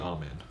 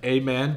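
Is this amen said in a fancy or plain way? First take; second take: fancy; plain. First: The word is said in a fancy way. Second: The word is said in a plain everyday way.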